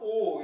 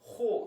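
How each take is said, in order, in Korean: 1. 단어가 바로 모음으로 시작해요. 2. 단어가 h 소리로 시작해요. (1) "강순표가 없었으면 그냥 오 이렇게 되는데" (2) "H 발음이 추가되면서 호 이렇게 발음이"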